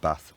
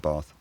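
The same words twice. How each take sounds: First: The vowel is short and made at the front. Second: The vowel is long and made further back. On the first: This is how northern English accents say it. "In the north, these are still something along the lines of" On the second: This is how southern English accents say it. "In the south, they're"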